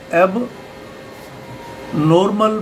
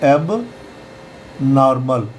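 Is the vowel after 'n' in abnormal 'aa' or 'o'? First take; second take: o; aa. First: The vowel after n sounds like 'o'. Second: The vowel after n sounds like 'aa'. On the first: The speaker calls it wrong. "ओ की मात्रा लगा के" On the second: The speaker calls it right. "यहाँ पर हम ओ को आ पढ़ेंगे"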